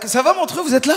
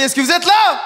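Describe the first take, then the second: First: Said in the usual way. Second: High, loud call to the crowd; rousing shout. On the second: Real, not acted. Comedian rousing a tired Montreux crowd, rousing shout. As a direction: shout to wake up the whole room.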